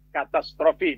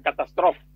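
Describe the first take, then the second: First: The word ends with a final 'ee' vowel. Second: The word ends on the 'f' sound. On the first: The speaker calls it right. "Dibaca katastrofi" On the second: The speaker calls it wrong. "bukan katastrof"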